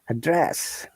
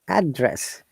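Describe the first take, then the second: First: The stress is on the second syllable. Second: The stress is on the first syllable. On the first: It is used as a verb. "if it is a verb, we stress and the second syllable" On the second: It is used as a noun. "When it is noun, we stress on the first part of the word"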